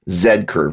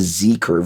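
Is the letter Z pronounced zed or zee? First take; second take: zed; zee. First: The letter is pronounced as zed. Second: The letter is pronounced as zee.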